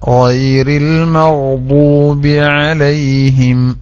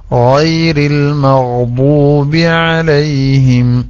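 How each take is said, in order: The two takes are said the same way.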